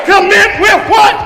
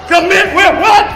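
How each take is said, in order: Both takes have the same delivery.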